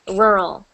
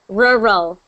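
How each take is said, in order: First: The word is said quickly and run together. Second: The word is said slowly and carefully. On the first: "you say it quickly, so it sounds like rural" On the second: "you just say it rural"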